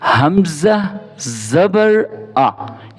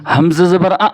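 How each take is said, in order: First: The final vowel is said evenly, at normal length. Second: The final vowel is cut off with a jerk. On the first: The speaker calls it right. "ये मैं सही करके पढ़ लिया" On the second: The speaker calls it wrong. "इसको झटके से पढ़ के दिखाता हूँ"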